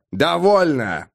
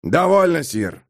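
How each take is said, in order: First: Raised-pitch sharp interruption; stern one-word order; barked command. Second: Dry, restrained interruption; curt dry rebuke, falling away. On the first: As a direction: bark it to shut him up. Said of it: "рявкнул Пауль". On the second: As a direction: cut him off drily, voice dropping on the last word. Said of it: "сказал Пауль сухо". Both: A narrator's reading.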